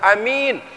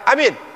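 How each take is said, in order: First: The second vowel is drawn out long. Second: Both vowels are kept short. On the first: It means the trustworthy one. "Kalau alifnya enggak panjang tapi ya-nya panjang" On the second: It means make it safe. "Kalau alifnya pendek, kalau enggak panjang dengan ya, ya-nya enggak panjang"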